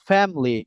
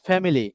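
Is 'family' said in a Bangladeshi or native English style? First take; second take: native English; Bangladeshi. First: The word is said the native English way. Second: The word is said the Bangladeshi way. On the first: The speaker calls it right. "নিট family" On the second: The speaker calls it wrong. "নট family. আমরা বাংলাদেশিরা বলি"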